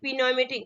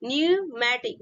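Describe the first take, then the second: First: The word begins with a sounded p. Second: The word begins without a p sound. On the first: The speaker calls it wrong. "बहुत लोग क्या पढ़ते हैं" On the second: The speaker calls it right. "Correct pronunciation होगा"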